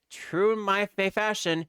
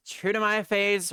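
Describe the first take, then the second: First: "fashion" restarted after "fa-"; self-correction. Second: "phase" said instead of "fashion"; slip of the tongue. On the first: Lawyer correcting his own slip, "fa-, fashion". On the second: Lawyer misspeaking a saying, "phase" for "fashion". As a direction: stumble onto "phase". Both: Acted.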